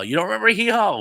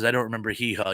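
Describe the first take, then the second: First: High, loud echo of disbelief; incredulous. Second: Said in the usual way. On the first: Real, not acted. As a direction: throw it back as an astonished question. Reacts to that comment in disbelief.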